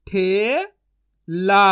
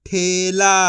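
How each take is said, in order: First: ठे rising long, pause, ला; syllable by syllable. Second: Said in the usual way. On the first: Shown as a demonstration. Teacher sounding out for learners, syllable by syllable. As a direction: split ठेला into two drawn-out sounds. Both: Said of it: "एक एक अक्षर का उच्चारण".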